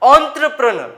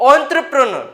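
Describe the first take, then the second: First: It starts with 'on' and ends with 'ner'. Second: It starts with 'on' and ends with 'ner'.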